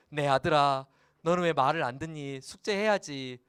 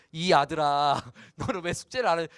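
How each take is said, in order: First: A father's fond nagging; affectionate father. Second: Louder, cold sulky scolding; sulky father. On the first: Pastor scolds his son Hyesung fondly, affectionate. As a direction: gently scold your own son. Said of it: "약간 이제 어감이". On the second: Pastor scolds his son Hyesung, sulky and cold. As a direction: distance the son with a pout. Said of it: "아빠가 지금 삐졌나 봐". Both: Shown as a demonstration.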